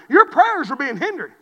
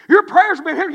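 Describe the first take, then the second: First: Loud, firm sermon line; emphatic preaching. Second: Higher and much louder repeat; preaching cry. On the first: Preacher warning couples about prayer, firmly. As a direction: state it with weight. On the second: Preacher repeating the warning to the church, crying out. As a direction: hammer it home harder. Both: Acted.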